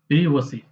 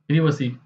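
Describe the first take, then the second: First: It is said in a British accent, 'privvacy'. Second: It is said in a British accent, 'privvacy'.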